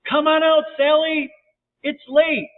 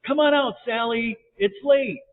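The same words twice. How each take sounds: First: High, loud holler into the dark; yelling. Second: High, raised calling voice; yelled out. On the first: Boys to missing Sally, louder yelling. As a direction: yell it far, pitched right up. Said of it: "They yelled again". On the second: Boys to hidden Sally, yelling out. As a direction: call out to someone hiding. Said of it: "So the boys yelled out". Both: A narrator's reading.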